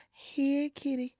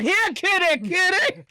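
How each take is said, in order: First: Soft, coaxing call to a cat; gentle coaxing. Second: Harsher, pushier "Here, kitty, kitty"; not gentle. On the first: Showing how to ease out, a gentle coaxing call. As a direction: ease it out gently, like luring a kitty. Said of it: "You being gentle". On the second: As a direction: call the cat without any softness. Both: Shown as a demonstration.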